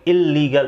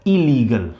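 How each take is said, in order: First: इल्लीगल with a long held double l, il-lee-gal; wrong doubled l. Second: इलीगल with one short l, i-lee-gal; correct single l. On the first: Teacher showing students the wrong way to say इल्लीगल, with a stretched double l. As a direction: lean on the doubled l in इल्लीगल, the mistaken way. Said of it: "ये इल्लीगल नहीं होता". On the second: Teacher giving students the right way to say इलीगल, with one short l. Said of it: "हम केवल इसको पढ़ेंगे". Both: Shown as a demonstration.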